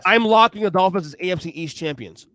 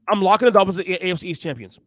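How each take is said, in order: First: It is said more slowly. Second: It is said very fast.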